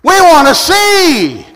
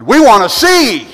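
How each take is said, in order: First: Loud, high, slow cry; louder repeated plea. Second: Said in the usual way. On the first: Acted. Blind men answering Jesus, crying out louder. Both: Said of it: "They said".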